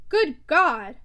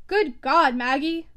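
First: Loud bursting exclamation; outburst. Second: Loud furious cry; exclamation. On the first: Stephen bursting out at Maggie, loud outburst. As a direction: explode with it, louder. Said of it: "he burst out at last". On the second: Stephen hearing Maggie will go back, loud outburst. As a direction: burst out at her, loud. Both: A narrator's reading.

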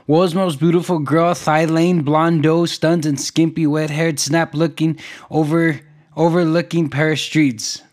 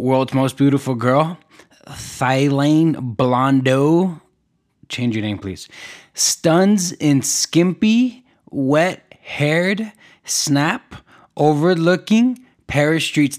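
First: Said in the usual way. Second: Drawn out, each word stretched slowly; slow dramatic headline read. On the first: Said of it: "Couldn't even say it right 'cause it's so long". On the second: Shown as a demonstration. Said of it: "Couldn't even say it right".

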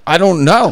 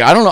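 First: Much higher, laughing through the words; retelling his helpless answer to the buyer while laughing; laughing shrug. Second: Said in the usual way. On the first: Retold or imitated. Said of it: "I'm like". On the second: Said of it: "And I'm just like".

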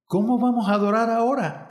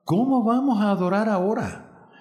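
First: Quick, high-pitched quoting back; mildly acted incredulous echo; echoed question. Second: Higher-pitched exclaimed question, mildly acted; lightly acted exclamation of dismay. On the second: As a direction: narrate a director's dismayed outcry. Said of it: "exclamó". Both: A narrator's reading.

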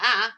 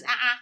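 First: Said in the usual way. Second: A clipped, louder "Uh-uh" sound, teasing; mocking uh-uh. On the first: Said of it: "I'm like". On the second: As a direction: say "Uh-uh" as a mock of his wife. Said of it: "he always goes".

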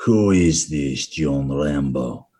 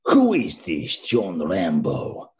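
First: Slow, lower, milder Russian voice; same villain line but dialled down; toned-down Russian accent. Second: Slow, heavy Russian bad-guy voice; thick Russian accent, very slow and menacing; Russian villain accent. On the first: Retold or imitated. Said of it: "I just took it down a few, few levels". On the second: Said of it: "the Russian guy from Rambo three".

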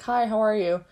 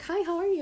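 First: Said in the usual way. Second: High, chirpy hello; mock-cheerful clingy friend saying hi; bubbly friend greeting. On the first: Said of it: "And I was just like". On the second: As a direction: greet me in a lightly voiced sugary sweet way. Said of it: "She was like".

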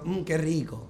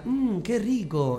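First: Lighter mocking repeat of the ad line; half-hearted mock commercial. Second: Slow, savoring ad line; drawn-out yummy commercial read; mock TV ad tasting voice. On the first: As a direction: tease the ad line back. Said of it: "estás diciendo". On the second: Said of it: "propaganda de Nor que decía".

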